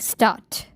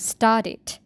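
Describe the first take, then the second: First: The past ending is only a bare t sound. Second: The past ending adds an extra syllable. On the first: The speaker calls it wrong. "We don't say like start" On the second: The speaker calls it right. "we add extra sound, which is it. So we pronounce like started"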